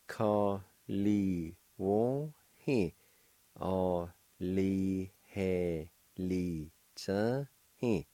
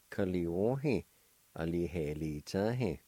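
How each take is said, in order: First: "Ka li wo he" "O li he li cha he" said very slowly, each syllable apart; slow syllable-by-syllable demo. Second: Said in the usual way. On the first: Shown as a demonstration. Teacher slowly models delighted for students. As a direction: spell it out slowly with your voice. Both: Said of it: "And together".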